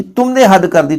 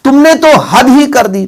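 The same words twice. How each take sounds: First: Said in the usual way. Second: Slow, higher, louder, तो and ही stressed; scolding emphasis on तो and ही; emphatic तो and ही. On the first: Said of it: "तो भी है, ही जोड़ दे". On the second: Shown as a demonstration. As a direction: drag out तुमने तो हद ही कर दी with force. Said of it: "ही जोड़ दे".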